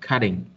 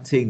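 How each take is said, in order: First: The middle consonant is a soft D-like sound. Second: The middle consonant is a clear T sound. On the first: "mà chúng ta đọc là cutting" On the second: "chúng ta sẽ không đọc là cutting nếu như mà chúng ta đọc giọng Mỹ"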